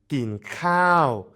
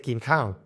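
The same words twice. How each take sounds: First: The second word has a long falling vowel. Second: The second word has a short falling vowel. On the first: The speaker calls it right. "So kin cow is falling long tone" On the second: The speaker calls it wrong. "at first I would say kin cow and I just said falling"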